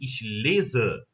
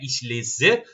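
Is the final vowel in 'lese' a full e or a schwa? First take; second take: schwa; full e. First: The final vowel is a weak, reduced schwa. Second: The final vowel is a full, clear e. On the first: The speaker calls it right. "mas sim ich lese" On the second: The speaker calls it wrong. "Não é ich lese"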